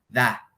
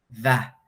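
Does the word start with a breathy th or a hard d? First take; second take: breathy th; breathy th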